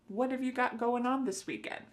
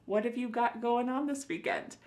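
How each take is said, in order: Both takes have the same delivery.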